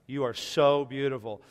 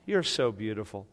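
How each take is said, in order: First: The phrase is said at a louder volume. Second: The phrase is said at a quieter volume. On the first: The speaker calls it right. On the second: The speaker calls it wrong.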